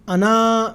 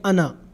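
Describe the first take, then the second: First: The final vowel is long. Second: The final vowel is short. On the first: The speaker calls it wrong. "अना नहीं पढ़ेंगे" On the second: The speaker calls it right. "अलिफ उसका नहीं पढ़ा जाएगा, बल्कि इसको पढ़ेंगे अना"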